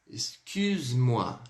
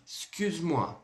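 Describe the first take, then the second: First: "Excuse-moi" drawn out very slowly, pouted u; slow demo. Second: Said in the usual way. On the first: Shown as a demonstration. ("Excuse-moi" bem devagar, com biquinho) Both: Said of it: "Então vamos lá".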